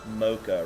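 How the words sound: It is said in an American accent. "Americans say mocha"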